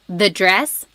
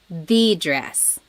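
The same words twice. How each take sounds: First: The stress falls on the word dress. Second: The stress falls on the word the.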